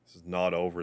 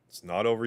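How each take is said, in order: First: Said in the usual way. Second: Questioning echo. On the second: Acted. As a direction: echo "not over" with a lifted, doubtful "over". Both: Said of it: "it's not over, you say?".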